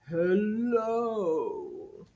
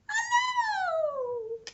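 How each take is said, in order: First: It is said in a very low voice. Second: It is said in a very high voice.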